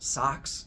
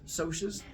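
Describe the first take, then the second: First: It sounds just like the word socks. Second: It sounds like a shortened form of socials. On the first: "you're going to start pronouncing it as socks" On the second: "it's called socius because it's short for the word socials"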